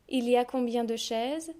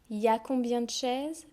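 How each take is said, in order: First: The word il is said in full. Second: The word il is dropped. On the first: This is the careful reading form. "So this is how we read" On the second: This is the casual spoken form. "I've just dropped the whole il"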